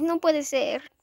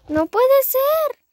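First: Said in the usual way. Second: High, loud, slow dismay; dismayed wail. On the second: Real, not acted. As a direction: stretch it out in disbelief. Repeated, drawn out and loud. (lamento alto y lento)

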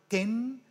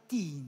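First: "τεν" like English ten; short English vowel. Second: Put-on "την" with a long English ee, like teen; long ee vowel. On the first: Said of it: "Άλλο". («τεν» με κοφτό ε) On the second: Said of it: "άλλο". («την» με μακρύ ι) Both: Shown as a demonstration.

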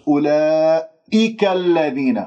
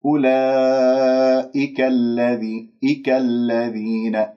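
First: أولئك الذين with the hamza punched hard; exaggerated, forced glottal attack in أولئك; overdone hamza. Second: أولئك الذي with an easy, unforced hamza; measured, level recitation of أولئك; smooth hamza. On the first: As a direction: lean forcefully on the "i" after the long vowel in أولئك. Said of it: "مبالغ فيه وتعسف". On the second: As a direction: glide slowly from the long vowel into "ika" in أولئك. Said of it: "يعني سلس عليها". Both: Shown as a demonstration.

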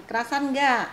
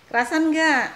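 First: Louder, higher probing question; raised-voice question. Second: Much louder, high insistent question; loud repeated question. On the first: Vlogger asking her friend about settling in, raised voice. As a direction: ask it brightly, pitch falling at the end. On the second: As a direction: call it out to get an answer. Repeats question, friend hardly answered. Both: Real, not acted.

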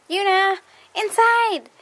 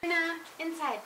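First: Loud, high call across the yard. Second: Coaxing. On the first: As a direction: call the dog in, slow and loud. Calling the dog back inside. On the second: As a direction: coax the dog in gently. Calling the dog, nearer and softer. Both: Real, not acted.

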